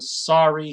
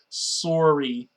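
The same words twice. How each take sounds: First: The word is said without a Canadian accent. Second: The word is said with a stereotypical Canadian accent. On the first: "instead of saying sorry" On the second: "he should say sorry"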